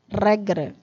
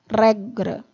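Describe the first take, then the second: No difference in how they are said.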